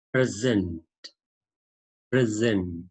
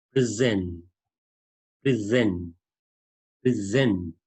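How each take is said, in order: First: "present" as a noun, stressed on the first syllable. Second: "present" as a verb, stressed on the second syllable. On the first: Teacher demonstrating the first word for learners, "present" stressed on the first syllable. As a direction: stress the PRE in "present", with an e as in pet. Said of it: "the stress is on P". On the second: Teacher demonstrating the second word for learners, "present" stressed on the second syllable. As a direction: reduce the start of "present" to pri and stress ZENT. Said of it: "the stress is on S". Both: Shown as a demonstration.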